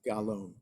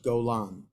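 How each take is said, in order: First: The first vowel is an a sound. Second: The first vowel is an o sound. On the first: The speaker calls it wrong. "not Galon" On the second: The speaker calls it right. "the way it's supposed to be pronounced is Golan"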